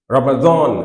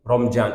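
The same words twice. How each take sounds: First: রমাদান said the Arabic way, with a heavy d; Arabic pronunciation. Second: Said in the usual way. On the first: Shown as a demonstration. Preacher showing the correct Arabic form of রমাদান. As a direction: pronounce রমাদান as in Arabic, stressing the dad. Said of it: "দদ দিয়ে". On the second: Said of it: "অন্তস্থ জ দিয়ে লিখছে".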